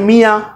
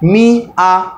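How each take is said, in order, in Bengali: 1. শব্দটি এক টানে মসৃণভাবে বলা হয়। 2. শব্দটি দুটি আলাদা অংশে ভাগ করে বলা হয়।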